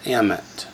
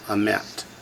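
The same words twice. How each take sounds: First: The stress is on the first syllable. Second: The stress is on the second syllable. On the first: The speaker calls it wrong. "Why isn't it emet?" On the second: The speaker calls it right. "the Shavah transfers the accent to the second syllable"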